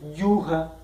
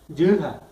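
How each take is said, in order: First: The first vowel is a plain u sound. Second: The first vowel is said with the mouth more open. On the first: The speaker calls it wrong. "la pronunciación no va a ser yuja" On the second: The speaker calls it right. "se va a pronunciar como abriendo la boca un poco"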